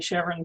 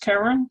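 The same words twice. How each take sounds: First: The name starts with a soft sh sound. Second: The name starts with a hard k sound. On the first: This honours the discoverer's wife. "to honour the wife" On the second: This is the technically correct form. "with the hard kit sound"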